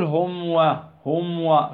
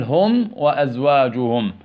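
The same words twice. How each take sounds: First: هم و with the meem swallowed into the waw; half-hidden meem before waw; wrong hidden meem. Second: هم وأزواجهم slow, meem fully sounded before the waw; clear meem. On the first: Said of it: "ما تقول". (إخفاء خاطئ للميم) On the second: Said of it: "بل". (إظهار الميم بوضوح ببطء) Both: Shown as a demonstration.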